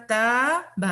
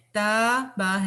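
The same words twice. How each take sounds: First: تَابَ said short as the error; wrong reading. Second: تَابَ with long madd, slow; correct reading. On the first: Teacher to class: shows the mistaken تَابَ. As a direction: clip تَابَ as a wrong example. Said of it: "تَابَ نہیں ہے". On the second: Teacher to class: correct تَابَ, drawn out. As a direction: stretch the aa in تَابَ. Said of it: "تَابَ ہے". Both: Shown as a demonstration.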